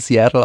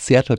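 First: Seattle is pronounced with English sounds. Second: Seattle is pronounced with German sounds. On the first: The speaker calls it right. "sobald man aus dem Englischen rauskommt, auch wieder von Seattle" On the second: The speaker calls it wrong. "weil es einfach in Deutsch so normal ist"

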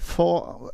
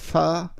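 First: The vowel sounds like an o. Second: The vowel sounds like an a.

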